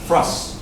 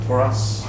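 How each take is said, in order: First: The words run together quickly with the vowel dropped. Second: Both words are said fully with the vowel heard.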